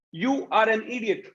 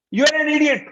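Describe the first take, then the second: First: Said in the usual way. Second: High, loud angry insult; harsh raised voice. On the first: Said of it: "It is a simple communication". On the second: Shown as a demonstration. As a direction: bark the insult hard and high. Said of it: "When you raise your voice".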